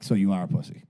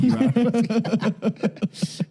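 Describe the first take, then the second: First: Said in the usual way. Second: Much higher, slow drawn-out taunt; mocking taunt. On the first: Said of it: "repeats it drawn out". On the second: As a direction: stretch it out high to mock him. Mocking repeat of the insult.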